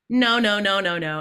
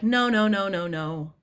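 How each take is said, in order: First: It is said forcefully, like being mad. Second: It is said calmly, without force.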